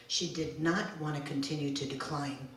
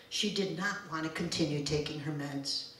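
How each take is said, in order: First: Not given the main weight, rest even; stress on not. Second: She given the main weight, rest even; stress on She. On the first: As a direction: lean on the word not. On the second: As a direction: lean on the word She. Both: Acted. Repeated line, shifting stress.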